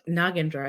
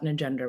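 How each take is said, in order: First: The name has a South Asian pronunciation. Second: The name has an Americanized pronunciation. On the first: This is the family's original way of saying the name. "is how you pronounce our name" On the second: This is the version adopted because it was easier for others. "easier to say because that's how someone said it"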